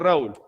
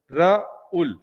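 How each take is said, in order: First: The name is said with English pronunciation. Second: The name is said with Spanish pronunciation. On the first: The speaker calls it wrong. "Si fuera en inglés, tú dirías" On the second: The speaker calls it right. "pero tú dices"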